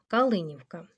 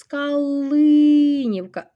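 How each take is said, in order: First: Said in the usual way. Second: "Калинівка" high and loud, with a long "ли"; "Калинівка" called out, stretched on stressed и. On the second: Shown as a demonstration. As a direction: hold the second syllable of "Калинівка". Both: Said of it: "Наголос".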